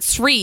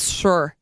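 First: An R sound follows the S directly. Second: No R sound follows the S directly. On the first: The speaker calls it wrong. "it's not Sri" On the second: The speaker calls it right. "You don't pronounce the first R"

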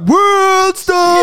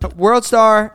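First: It is yelled loudly and over the top. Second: It is said at a calm, normal volume. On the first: "the most absurd yell" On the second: "It's never World Star"

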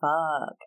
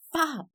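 First: It is said in a sad way. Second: It is said in an angry way.

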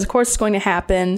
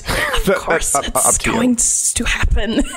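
First: It is said in his ordinary speaking voice. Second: It is said in a put-on creature voice. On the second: "Did I read in the Gollum voice?"

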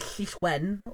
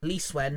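First: The name is said with a Welsh pronunciation. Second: The name is said with an English pronunciation. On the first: "The Welsh way of putting it" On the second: "I say, because I'm English"

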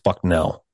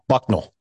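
First: The name is said with the standard pronunciation. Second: The name is said with a nonstandard pronunciation. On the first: The speaker calls it right. "but it's Bucknell" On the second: The speaker calls it wrong. "is what how he pronounces it"

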